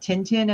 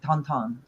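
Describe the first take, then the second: First: The name is said with an English pronunciation. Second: The name is said with a French pronunciation. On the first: "called Tintin in American or English" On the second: "he pronounces it in French like Tonton"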